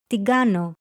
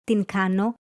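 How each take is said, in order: First: Fast-talk "τι κάνω", pronounced "ti GA-no"; ni and kappa merged. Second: Careful "την κάνω", n and k unmerged; ni and kappa separate. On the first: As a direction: say "τι κάνω" with a g sound, "ti gano". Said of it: "are pronounced together". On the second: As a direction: say "την κάνω" with a distinct n, then k. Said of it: "and not". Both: Shown as a demonstration.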